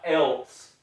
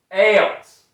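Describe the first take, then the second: First: "else" said /ɛls/; plain "else". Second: "Else" with a /ɛlts/ ending; Southern "Else". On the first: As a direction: say "else" the standard way. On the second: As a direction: say "Else" the country way. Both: Shown as a demonstration. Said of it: "not else".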